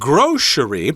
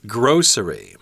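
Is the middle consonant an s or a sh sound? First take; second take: sh; s. First: The middle consonant is a sh sound. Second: The middle consonant is an s sound. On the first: "with a sh sound in there" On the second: "but other people say grocery"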